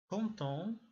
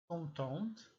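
First: "Content" said nasal, final t silent; masculine form. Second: "content" said with the final t sounded, as contente; feminine form. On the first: Teacher giving the masculine "Content" with a silent t. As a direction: say "Content" ending on the nasal vowel with no t. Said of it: "zadowolony, zadowolona". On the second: Teacher giving the feminine "content" with a spoken t. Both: Shown as a demonstration.

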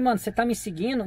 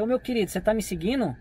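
First: Said in the usual way. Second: Pergunta tranquila, um pouco mais suave; calmo e gentil. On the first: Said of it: "Não, eu falei desse jeito". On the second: Shown as a demonstration. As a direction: pergunte com calma, como quem chama de meu querido. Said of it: "eu falei desse jeito, ó, pra vocês verem". (tom calmo e amigável)

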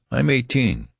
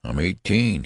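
First: High-pitched, insistent outburst; indignant protest. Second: Mildly weary, patient repeat; weary insistence. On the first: Benjamin protesting his age to the registrar, indignantly. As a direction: protest it, pitch jumping right up. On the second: Benjamin repeating his age to the registrar, wearily. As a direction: say it with a tired smile, barely lifted. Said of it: "Benjamin smiled wearily". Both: A narrator's reading.

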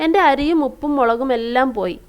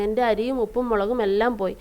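First: Said in the usual way. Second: Put-on a softer, mildly sad reading of the girl's cry; girl mourning her spilled rice, softly sad; sad lament. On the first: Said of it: "അത് കണ്ട് അവൾ സങ്കടപ്പെട്ട് പറയുകയാണ്". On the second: A narrator's reading. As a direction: let the loss sink into the words, quietly. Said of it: "സങ്കടപ്പെട്ട് പറയുകയാണ്".

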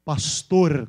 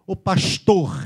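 First: Said in the usual way. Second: Pastor with hushed "sh" and guttural R; exaggerated Rio "pashtohr"; carioca accent. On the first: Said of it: "como é que eles falam?". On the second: Shown as a demonstration. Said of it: "O carioca fala um R bem puxado e os S's".

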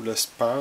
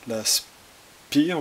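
First: "Spar" said the English way, brand name with an English accent. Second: Said in the usual way. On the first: Shown as a demonstration. Naming the thermal paste brand, English accent. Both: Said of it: "avec l'accent anglais".

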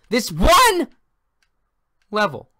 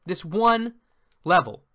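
First: A frustrated gamer's voice breaks mid-rant; voice cracking high. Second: Said in the usual way. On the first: Real, not acted. Gamer repeating his goal, voice cracking high. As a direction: voice cracks up high and loud on one. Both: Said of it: "My voice cracked there".

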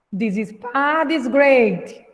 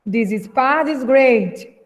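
First: Slow, careful read for repeating; slow model reading. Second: Said in the usual way. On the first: Shown as a demonstration. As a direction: model the line slowly for the class. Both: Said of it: "vamos repetir aí a fala do Yuri".

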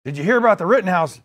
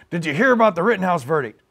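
First: Biden impression gone lightly Southern; accidental southern accent. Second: Loose presidential impression, quick delivery; Joe Biden. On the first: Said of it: "gave him a southern accent". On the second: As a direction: restart the impression without the Southern slip. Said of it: "he's, my Biden".

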